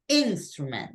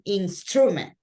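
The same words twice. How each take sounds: First: The stress is on the first syllable. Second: The stress falls on a later syllable. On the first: The speaker calls it right. "we're saying instrument" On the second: The speaker calls it wrong. "We're not saying instrument"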